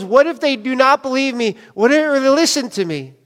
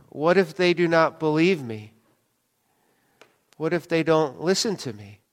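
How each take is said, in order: First: Raised-pitch imitation of Moses objecting; higher, urgent mock worry; emphatic mock protest. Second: Soft, halting reading of Moses; low-key, hesitant quote; subdued scripture quote. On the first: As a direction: retell his objection, pitched up and insistent. Repeats Moses' objection with force. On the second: A narrator's reading. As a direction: read it quietly with a long pause. Scripture read, then repeated emphatically.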